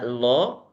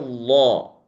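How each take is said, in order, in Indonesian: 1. Bunyi L-nya tipis dan ringan. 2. Bunyi L-nya tebal dan penuh. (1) "enggak lo" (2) "tapi lo"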